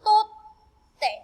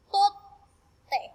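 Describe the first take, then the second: First: "totte" said higher and louder, with a held double t; a clear raised "totte", stressing the double consonant; louder model. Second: "Totte" repeated higher, pausing on the double t; model repeat. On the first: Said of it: "Torimasu becomes". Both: Shown as a demonstration.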